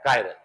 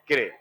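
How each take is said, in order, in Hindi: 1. पहला अक्षर 'kai' जैसा सुनाई देता है। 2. पहला अक्षर 'kee' जैसा सुनाई देता है। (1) "लेकिन चलता क्या है?" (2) "अगर एग्जैक्टली प्रोनाउंस करो तो इनको किरेल कहते हैं"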